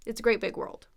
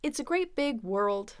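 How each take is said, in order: First: Quick, run-together "great big world"; said fast. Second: Said in the usual way. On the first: Shown as a demonstration. Teacher gives the sentence at natural speed, fast. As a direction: say it fast, words blending into one. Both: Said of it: "saying it that fast".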